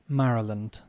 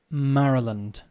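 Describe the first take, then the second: The two takes are said the same way.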